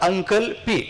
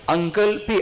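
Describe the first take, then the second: Both takes have the same delivery.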